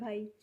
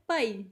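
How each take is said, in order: First: It is said gently, in a Hindi way. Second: It is said forcefully, in a Punjabi way.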